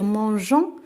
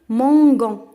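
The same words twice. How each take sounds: First: The middle consonant is a soft zh sound. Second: The middle consonant is a hard g sound. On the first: The speaker calls it right. "À la place de lire" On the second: The speaker calls it wrong. "on va lire"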